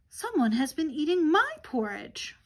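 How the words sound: It is said in a medium-sized voice.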